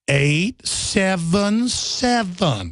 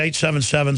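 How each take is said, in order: First: It is said very slowly. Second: It is said at a normal pace.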